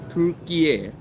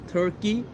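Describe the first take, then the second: First: It is said like the Turkish 'Türkiye'. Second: It is said as the English 'Turkey'. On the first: This is the new official name. The speaker calls it right. "to Turkey" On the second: This is the old name of the country. The speaker calls it wrong. "changed the name of that country from Turkey"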